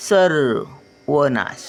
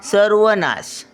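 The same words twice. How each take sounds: First: सर्वनाश drawn out syllable by syllable; slow syllable reading. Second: Said in the usual way. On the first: Shown as a demonstration. Grandmother sounding out सर्वनाश for children, slowly. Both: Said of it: "word then slow repeat".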